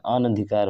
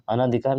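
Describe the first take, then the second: First: अनधिकार with a short a, an-dhikaar; correct form, short a. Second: अनाधिकार with a long aa after अन; wrong form, long aa. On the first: Teacher gives students the correct spelling, short a. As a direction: say अनधिकार crisply, no long vowel after अन. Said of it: "अनधिकार होता है". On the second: Teacher shows students the wrong spelling, long aa. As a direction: say अनाधिकार as a-naa-dhikaar, stretching the second vowel. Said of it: "अनाधिकार नहीं होता है". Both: Shown as a demonstration.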